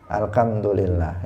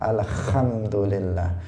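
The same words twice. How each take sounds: First: The h is said as a k sound. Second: The h is said as a rough kh sound. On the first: "ada yang membacanya dengan kaf" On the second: "Kalau dia membacanya alhamdulillah jadi kha"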